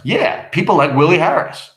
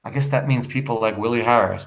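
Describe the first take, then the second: First: Emphatic acted comeback, a bit raised; defiant retort. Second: Understated, weary remark. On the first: Husband answering his weary wife, mildly defiant. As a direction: throw it back with more force. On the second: Acted. Wife remarking on husband's friends, mildly weary. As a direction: say it with a touch of tiredness. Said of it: "Ruth wearily".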